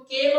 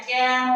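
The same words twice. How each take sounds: First: Said in the usual way. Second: কেন said as "kæn", with open æ; কেন pronounced "kæn"; open e pronunciation. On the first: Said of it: "আমরা কিন্তু কেন বলি না". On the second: Shown as a demonstration. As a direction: say কেন like ক্যান. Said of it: "কেন বলি".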